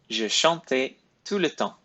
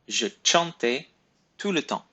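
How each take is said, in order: First: Every word has its standard French pronunciation. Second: One word has a non-standard pronunciation.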